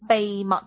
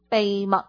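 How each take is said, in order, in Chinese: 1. 这个词的开头是 b 音。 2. 这个词的开头是 b 音。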